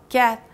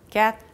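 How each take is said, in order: No difference in how they are said.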